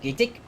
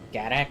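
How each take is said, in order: First: The final syllable is said quickly and clipped. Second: The final syllable is said fully, not rushed. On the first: The speaker calls it right. "probably something along the lines of Gatik. You know, really fast at that last part" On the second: The speaker calls it wrong. "I'm pronouncing it Gadak"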